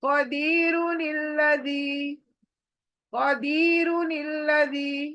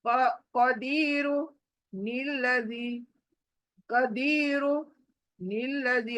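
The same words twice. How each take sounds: First: कदीरु निल्लज़ी chanted as one connected word; joined without stopping. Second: कदीरु, a clear pause, then निल्लज़ी; wrongly separated words. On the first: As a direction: carry कदीरु straight into निल्लज़ी on a level tone. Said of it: "दोनों को जोड़कर एक बनाना". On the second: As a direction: break after कदीरु and drop निल्लज़ी as its own word. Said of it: "ऐसे नहीं पढ़ेंगे". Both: Shown as a demonstration.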